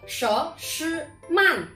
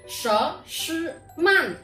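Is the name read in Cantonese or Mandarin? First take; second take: Mandarin; Mandarin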